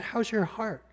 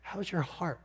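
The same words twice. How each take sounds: First: Gentle, higher question, slightly softer; tender question. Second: Much softer, hushed and lingering; gentle ministry question. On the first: Doctor asking a weeping patient, tenderly. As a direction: ask it like a caring doctor. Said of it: "she was so tender and kind". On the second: Speaker repeating the doctor's question to listeners, hushed. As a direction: savour the question softly. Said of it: "a ministry-oriented question". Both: Retold or imitated.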